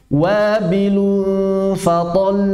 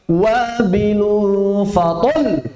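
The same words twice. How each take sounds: First: The final syllable is said without any raising. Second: The final syllable is pushed with heavy emphasis. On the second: "Ada sebagian orang berlebihan, harus dinabar"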